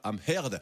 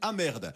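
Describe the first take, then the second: First: The H sound is clearly pronounced. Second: The H sound is dropped. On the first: The speaker calls it right. "prononcez bien le H de son nom de famille" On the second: The speaker calls it wrong. "sinon ça donne Amherd"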